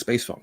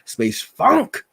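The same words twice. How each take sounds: First: It is said at ordinary volume. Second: It is said loudly and forcefully. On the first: "let's just stick with" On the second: "I should be saying it louder because of the exclamation"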